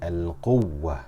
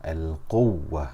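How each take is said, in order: The two takes are said the same way.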